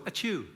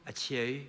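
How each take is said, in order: First: Ordinary high sneeze; a normal English sneeze. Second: A muffled Northern Irish sneeze; Ulster sneeze. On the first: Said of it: "Normally English people go". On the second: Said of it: "people from Northern Ireland go". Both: Shown as a demonstration.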